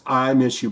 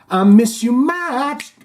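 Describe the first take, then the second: First: Said in the usual way. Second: High, slow crooned miss; sung, stretch out miss you much like a pop hook; sung, song quote. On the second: Shown as a demonstration. Signing off to the viewer in a mock crooned song line.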